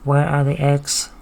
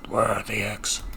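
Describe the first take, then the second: First: It is said in a robotic voice. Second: It is said in a gruff voice.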